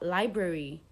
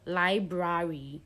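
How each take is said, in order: First: The A sound is said weakly. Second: The A sound is said fully. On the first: The speaker calls it right. "the A sound is usually a weak sound" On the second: The speaker calls it wrong. "it doesn't come out like library"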